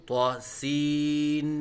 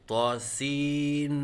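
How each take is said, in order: Both takes have the same delivery.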